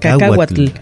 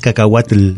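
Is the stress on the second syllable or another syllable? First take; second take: second syllable; another syllable. First: The stress is on the second syllable. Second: The stress is not on the second syllable. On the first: The speaker calls it right. "tiene un acento en la, segunda" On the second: The speaker calls it wrong. "No es cacahuatl"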